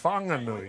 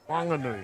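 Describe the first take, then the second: First: The first sound carries the h of wh. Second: The first sound is a plain w, no h. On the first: This is the usual reading of the spelling. "normally that would be pronounced Whanganui" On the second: This is how the local people say it. "their dialect does not pronounce H's"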